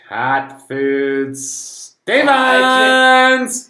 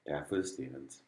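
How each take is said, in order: First: The name is said loudly, almost shouted. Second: The name is said at normal, quieter volume.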